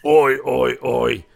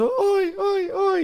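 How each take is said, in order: First: Loud oi at usual pitch; imitated gruff oi. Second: Very high falsetto ois; imitated high oi. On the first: Recapping the first wrestler's yell, loud imitation. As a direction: bellow the ois in your own register. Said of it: "From going". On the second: Contrasting the tall wrestler's voice, high-pitched imitation. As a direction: flip the ois up into a squeak.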